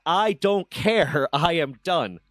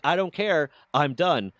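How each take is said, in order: First: Very slow, loud, each word spaced out, ending in a laugh; slow, final dismissal. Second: Loud, higher, fed up retort; angry dismissal. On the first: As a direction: drag it out to close the door, then laugh. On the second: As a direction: slam the door on the talk. Shutting down the argument. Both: Retold or imitated.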